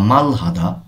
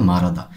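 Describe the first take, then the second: First: The h sound is pronounced separately. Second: The h sound is dropped and linked.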